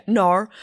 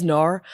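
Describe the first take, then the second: First: "nar" said the New Zealand way, a flat drawn-out nah; a try at Rose's New Zealand "nar"; a bad New Zealand accent. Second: "nar" with the New Zealand vowel, the way Rose says it; Rose's New Zealand "nar"; New Zealand accent. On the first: Shown as a demonstration. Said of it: "I can't do the "nar". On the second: Retold or imitated. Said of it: "She says".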